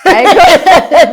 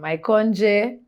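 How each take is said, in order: First: The J is silent at the end. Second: A J sound is pronounced at the end. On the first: The speaker calls it right. "J silent" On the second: The speaker calls it wrong. "I've had all of them"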